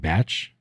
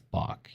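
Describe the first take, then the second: First: The name ends with a 'ch' sound. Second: The name ends with a 'k' sound. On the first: The speaker calls it wrong. "no, that's not how you pronounce it" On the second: The speaker calls it right. "It's Bach. You know, it's like like the composer"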